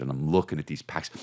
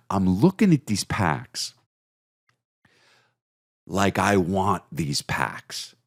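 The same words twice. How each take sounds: First: Said in the usual way. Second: Slow, drawn-out covetous voice; longing stare. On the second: Shown as a demonstration. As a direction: stretch it out like you crave them. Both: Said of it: "That's how I'm looking at these packs".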